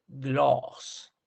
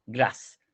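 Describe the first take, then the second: First: "gloss" slow, with a long rounded O. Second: "glass" with a brief open A; short and concise. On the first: Teacher contrasting it with glass, "gloss" with long O. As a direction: draw out the vowel in "gloss". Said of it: "Pero aquí es". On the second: Teacher finishing the demonstration, "glass" short and concise. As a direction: say "glass" compactly, vowel cut short. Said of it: "corto y conciso". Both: Shown as a demonstration.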